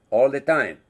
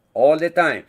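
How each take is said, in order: Both takes have the same delivery.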